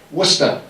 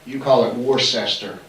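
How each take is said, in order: First: Worcester as WOOS-tuh with dropped r; Worcester said the Massachusetts way, WOOS-tuh; local pronunciation. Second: Worcester spelled out WOR-ses-ter; Worcester said as written, three syllables; outsider pronunciation. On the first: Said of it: "Worcester, we called it". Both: Shown as a demonstration.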